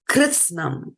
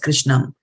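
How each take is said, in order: First: The middle consonant is pronounced 'ts'. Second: The middle consonant is pronounced 'sh'. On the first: The speaker calls it right. "This word here was Kritsnam" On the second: The speaker calls it wrong. "we call it as Krishnam. It's not Krishnam"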